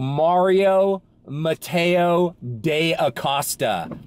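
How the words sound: The name is said with an English accent.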